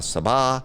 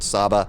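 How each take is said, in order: First: The name is said with a non-American pronunciation. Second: The name is said with an Americanized pronunciation. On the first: The speaker calls it right. "some people have told me it's" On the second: The speaker calls it wrong. "I always pronounce it wrong. I pronounce it Saba"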